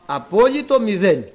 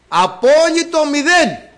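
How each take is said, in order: First: Said in the usual way. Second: "Απόλυτο μηδέν" cried out higher, louder and slow, stretching "μηδέν"; slow high shout of "Απόλυτο μηδέν"; preached shout. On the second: Shown as a demonstration. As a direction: proclaim "Απόλυτο μηδέν" to the rafters.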